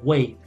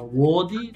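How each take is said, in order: First: The word ends in a 'd' consonant. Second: The word ends in an 'ee' vowel. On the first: The speaker calls it right. "Sería Wade" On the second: The speaker calls it wrong. "esta no sería Wadi"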